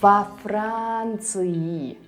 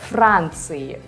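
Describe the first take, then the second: First: A vowel separates the preposition from the noun. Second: The preposition runs straight into the consonant cluster. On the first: The speaker calls it right. "We add a vowel to a preposition for a better flow" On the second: The speaker calls it wrong. "It's hard, right? There are too many consonants in a row"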